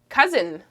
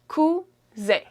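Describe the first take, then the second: First: It is pronounced with English sounds. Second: It is pronounced with French sounds.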